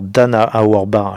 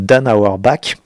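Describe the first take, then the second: First: The name is said with a German-style pronunciation. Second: The name is said with an American-style pronunciation. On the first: "je la prononce un peu à la germanique, à l'allemande" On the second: "peut-être qu'on dirait en américain"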